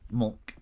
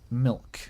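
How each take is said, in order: First: The vowel is a slurred 'uh' sound. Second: The vowel is a clear 'ih' sound. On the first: "Maybe mulk if I'm slurring my speech" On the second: "How do you say milk?"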